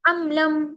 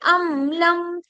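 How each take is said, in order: First: The m sound is cut off quickly and abruptly. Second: The m sound is held a moderate length. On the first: The speaker calls it wrong. "इतना जल्दी नहीं पढ़ते कि चिद्दा जैसी प्रॉपर्टी इसके अंदर आ जाए" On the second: The speaker calls it right. "इतना पढ़ते हैं कि जो मीम जो है वो"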